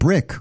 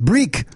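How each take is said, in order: First: It is said in a plain English accent. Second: It is said in a Swedish accent.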